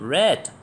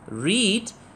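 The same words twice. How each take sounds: First: The vowel is short, like in 'bed'. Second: The vowel is long, like in 'seed'. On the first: It is the past form of the verb. "The same spelling but with different pronunciation" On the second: It is the present form of the verb. "There is something interesting about the verb read"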